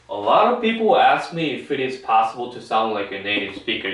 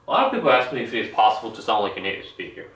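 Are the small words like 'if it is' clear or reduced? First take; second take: clear; reduced. First: Every word is pronounced clearly and separately. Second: The small words are reduced and nearly inaudible. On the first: This is how it sounds on the news. "이렇게 정확히 또박또박 발음한다는 거죠" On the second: This is how it sounds in films and dramas. "if가 거의 들리지 않아요. 영화나 드라마에서는 이렇게 소리를 내는데"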